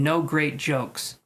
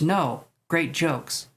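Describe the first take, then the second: First: It runs straight on with no pause after 'no'. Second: There is a short pause after 'no'. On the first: The jokes were not great. "if you didn't put a comma there" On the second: No, and the jokes were great. "since you put a comma there"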